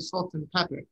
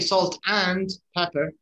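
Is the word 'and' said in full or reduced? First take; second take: reduced; full. First: The word 'and' is reduced to 'un'. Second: The word 'and' is said in full. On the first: The speaker calls it right. "We always say" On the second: The speaker calls it wrong. "We don't say"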